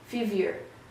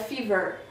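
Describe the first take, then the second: First: The word ends without any extra vowel sound. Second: An extra vowel sounds at the end of the word. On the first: The speaker calls it right. "não pronuncia o I no final" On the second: The speaker calls it wrong. "Não é fever"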